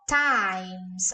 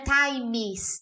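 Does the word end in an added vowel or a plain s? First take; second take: plain s; added vowel. First: The word ends straight on the s sound. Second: An extra vowel is added before the final s. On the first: The speaker calls it right. "Olha como fica joia" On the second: The speaker calls it wrong. "não é times. Não tem vogal nenhuma"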